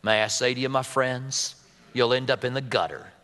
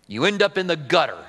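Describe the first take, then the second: First: J Vernon McGee drawl. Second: A light Southern US drawl, lazily stretched. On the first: Preacher imitating McGee's Southern drawl for the congregation. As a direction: lower Southern drawl, slow and folksy. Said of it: "Can you hear him?". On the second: Pastor quoting J Vernon McGee in a light Southern drawl. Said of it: "in his southern drawl". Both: Retold or imitated.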